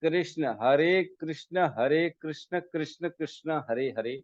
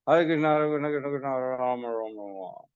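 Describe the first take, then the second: First: Each name is said slowly and clearly. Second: The names are rushed together quickly and unclearly. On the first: The speaker calls it right. "ऐसे होना चाहिए।" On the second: The speaker calls it wrong. "जल्दी जल्दी कर रहे हैं।"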